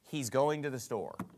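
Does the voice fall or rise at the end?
fall. The voice falls at the end, like a statement.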